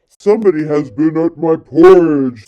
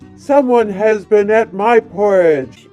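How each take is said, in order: First: It is said in a deep, gruff voice. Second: It is said in a medium-pitched voice.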